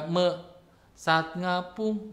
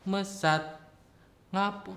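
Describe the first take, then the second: First: The first word is broken into two parts. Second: The first word is said whole, without a break. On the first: The speaker calls it wrong. "nah itu kan udah beda gitu. Me saat ngapung itu beda artinya nantinya" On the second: The speaker calls it right. "Jadi enggak mesat ngapung"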